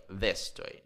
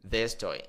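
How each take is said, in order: Both takes have the same delivery.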